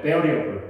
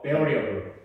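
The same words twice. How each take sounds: First: Variable with stress on the first syllable VAR; corrected pronunciation. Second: Variable, stress on VAR, slow and clear; corrected pronunciation. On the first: Teacher corrects earlier wrong pronunciation, firm model. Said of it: "여기서 다시 바로 잡을게요". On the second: Teacher says listen well, then models carefully. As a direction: repeat variable with first syllable stressed. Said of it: "잘 들어". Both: Shown as a demonstration.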